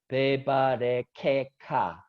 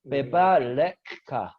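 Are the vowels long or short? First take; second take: long; short. First: Each syllable is said with a full, long vowel. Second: The first vowels are clipped short and quick. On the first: The speaker calls it wrong. "you are not supposed to put this one as simple a. It doesn't sound like" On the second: The speaker calls it right. "So you need to make it shorter, like"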